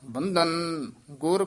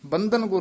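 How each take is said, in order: First: There is a short pause between the words. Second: The two words run together without a pause. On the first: The speaker calls it right. "ਬੰਧਨ ਇੱਥੇ ਵੀ ਠਹਿਰਾ ਦੇ ਦੇਣਾ" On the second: The speaker calls it wrong. "ਬੰਧਨ ਗੁਰ ਨਹੀਂ ਕਹਿ ਦੇਣਾ"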